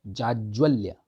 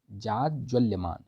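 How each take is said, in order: First: Said in the usual way. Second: "जाज्वल्यमान" धीरे, हर अक्षर साफ़; "जाज्वल्यमान" को धीमे तोड़कर पढ़ाओ; slow spelled-out word. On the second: Shown as a demonstration. ("जाज्वल्यमान" धीमा, स्पष्ट उच्चारण) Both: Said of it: "जाज्वल्यमान होता है".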